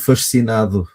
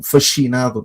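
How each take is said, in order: First: The s and c sounds are kept apart. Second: The s and c merge into one sh-like sound. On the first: The speaker calls it right. "mas eu posso dizer fascinado" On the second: The speaker calls it wrong. "para não ficar um fascinado"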